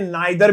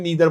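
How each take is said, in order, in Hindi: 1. पहला स्वर 'eye' जैसा सुनाई देता है। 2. पहला स्वर 'ee' जैसा सुनाई देता है। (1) "कुछ कंट्रीज में इसे नाइदर भी प्रोनाउंस करते हैं" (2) "हम इंडियंस ब्रिटिश इंग्लिश को फॉलो करते हैं तो हम इसे नीदर बोलेंगे"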